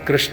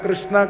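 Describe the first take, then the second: First: The name ends without a long vowel. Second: The name ends with a long 'aa' vowel. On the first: It is the proper masculine name. The speaker calls it right. "કૃષ્ણ તો કૃષ્ણ એમનું નામ છે" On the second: It becomes a feminine name. The speaker calls it wrong. "લોકો કૃષ્ણા કૃષ્ણા કરે છે ને, તો એ કૃષ્ણા પણ ખોટું છે"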